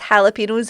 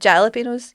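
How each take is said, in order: First: The word begins with an H sound. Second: The word begins with a J sound. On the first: The speaker calls it right. "Ja is ha" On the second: The speaker calls it wrong. "and not"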